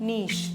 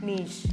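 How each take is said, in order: No difference in how they are said.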